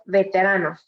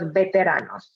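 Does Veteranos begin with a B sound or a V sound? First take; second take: V sound; B sound. First: The word begins with a V sound. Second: The word begins with a B sound.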